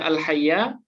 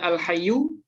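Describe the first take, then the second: First: The word ends with an 'a' vowel. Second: The word ends with a 'u' vowel. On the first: It is a third attribute describing God. "kalau dibaca al-hayya berarti dia menjadi naat yang ketiga untuk lafaz Allah" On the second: It is the predicate of a hidden pronoun. "kalau dibaca al-hayyu dia menjadi khobar"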